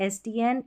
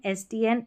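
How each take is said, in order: No difference in how they are said.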